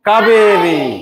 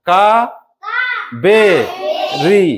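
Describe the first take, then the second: First: The syllables are run together as one word. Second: Each syllable is said separately with pauses.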